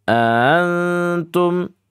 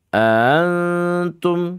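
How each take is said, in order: The two takes are said the same way.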